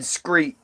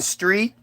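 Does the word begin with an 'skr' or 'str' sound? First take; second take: skr; str. First: The word begins with an 'skr' sound. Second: The word begins with a plain 'str' sound. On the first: "we said screet" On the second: "instead of saying street"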